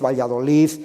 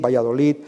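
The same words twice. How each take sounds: First: The final consonant is a th sound. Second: The final consonant is a soft d. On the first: "es muy frecuente de hacerlo como Z" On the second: "debería pronunciarse como yo he hecho ahora, como una especie de D suave"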